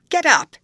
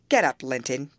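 First: Much higher, much louder bellowed order; furious shout. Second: Said in the usual way. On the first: A narrator's reading. Heathcliff shouting at his cowering son, furious shout. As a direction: roar it at the boy on the ground. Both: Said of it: "he shouted".

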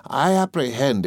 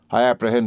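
First: Slow, higher, drawn-out APPREHEND; pompous, slow mimicry of the other's word; mocking echo. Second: Said in the usual way. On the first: A narrator's reading. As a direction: throw APPREHEND back with heavy scorn, stretched and pitched up. Master mockingly echoes assistant's word.

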